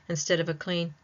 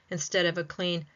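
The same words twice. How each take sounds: Both takes have the same delivery.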